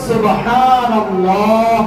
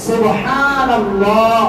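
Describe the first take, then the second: The two takes are said the same way.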